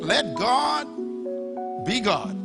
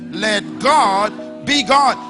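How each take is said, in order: First: It is said at normal, softer volume. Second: It is said loudly, with conviction.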